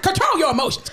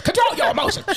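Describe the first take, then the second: First: Firm stern order, higher; stern scolding. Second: Shouted scolding. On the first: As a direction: scold like a strict nurse. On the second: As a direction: shout it, much higher. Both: Retold or imitated. Stern nurse practitioner scolding.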